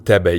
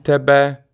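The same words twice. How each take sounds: First: The stress is on the first syllable. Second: The stress is on the last syllable. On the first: The word follows a preposition. "when it's used with the preposition... the stress moves to the front" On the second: The word stands alone as an object. "When it's alone, as an object, the stress is on the end"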